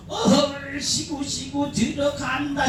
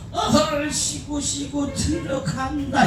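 First: Lightly voiced high chant, softer; a hint of the Gyeongsang crowd calling out; imitating Gyeongsang women. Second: Slow, high and softer call-out; lightly drawn out, a bit hesitant; imitating himself in Jeolla. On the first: Mimicking Gyeongsang women at the show, light high call. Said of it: "이러면". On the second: Retelling his Jeolla show to the crowd, slow high call. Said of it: "이랬다가".

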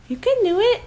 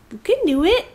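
First: Higher, coaxing cheer; high encouraging. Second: Said in the usual way. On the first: Real, not acted. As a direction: cheer the dog on, pitched up. Encouraging dog to fetch.

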